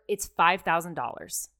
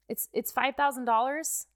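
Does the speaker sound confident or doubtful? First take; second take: confident; doubtful. First: It sounds firm and confident. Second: It sounds hesitant and unsure.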